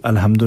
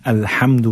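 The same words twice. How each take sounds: First: अलहम्दु with a plain everyday h; wrong soft ha. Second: अल्हम्दु with a breathy throat ह; correct Arabic ha. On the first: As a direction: say अलहम्दु with a weak ह. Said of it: "अलहम्दु नहीं पढ़ना है". (अलहम्दु में हल्का हा) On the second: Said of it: "पढ़ना है हा के साथ". (अल्हम्दु में हलक वाला हा) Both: Shown as a demonstration.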